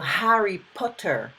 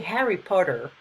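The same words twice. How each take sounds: First: It is said in a British accent. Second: It is said in an American accent.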